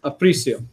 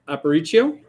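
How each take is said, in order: First: Aparicio as uh-PREE-see-oh, falling; corrected pronunciation. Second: Aparicio as ah-puh-REE-tee-oh, questioning; tentative pronunciation. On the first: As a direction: Aparicio echoed back, ending "see-oh". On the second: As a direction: try Aparicio with a "tee-oh" ending, rising. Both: Real, not acted. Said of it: "I'll get it, trust me".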